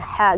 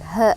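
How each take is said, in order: First: The h sounds light, from the mid throat. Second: The h sounds deep and full, from low throat. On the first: The speaker calls it wrong. "ha yang keluar dari tengah tenggorokan" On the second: The speaker calls it right. "Sebenarnya kan dia di bawah tenggorokan ha gitu ya. Suaranya agak besar dikit"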